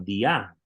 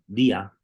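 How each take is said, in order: First: The stress is on the second syllable. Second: The stress is on the first syllable. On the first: The speaker calls it right. "cuando se le pone acento sobre la, la alfa, tenemos que leerlo como dia" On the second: The speaker calls it wrong. "no como día. Para ser día, el acento tendría que estar sobre la iota"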